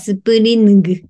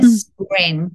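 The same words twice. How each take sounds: First: The ending has a separate hard g sound. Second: The ending is one nasal ng sound. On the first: The speaker calls it wrong. "スプリングじゃなくて" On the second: The speaker calls it right. "N の鼻音からそのまま抜いていって"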